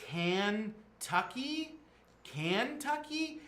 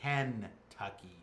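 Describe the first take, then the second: First: "Kentucky" drawn out very slowly and high, as a question; puzzled mispronunciation. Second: "Kentucky" slow and low, as a statement; patient correction. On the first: Teens baffled by an unknown place, puzzled slow "Kentucky". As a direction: sound out "Kentucky" in two puzzled, separate halves, pitched up. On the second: Sam corrects the teens, slow deliberate "Kentucky". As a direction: spell out "Kentucky" slowly in the usual pronunciation, falling. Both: Acted. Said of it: "No, it's Kentucky".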